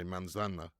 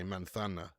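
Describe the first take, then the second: First: The z is pronounced like s. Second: The z is pronounced like th. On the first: "in the other part of Spain" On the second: "pronounces the the Z's like T H's"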